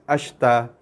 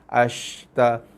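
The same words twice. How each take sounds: First: The sh sound is short and rushed. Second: The sh sound is drawn out longer. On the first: The speaker calls it wrong. "Cepat macam mana bunyi dia?" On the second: The speaker calls it right. "seret sikit. panjangkan sikit bunyi sh tu"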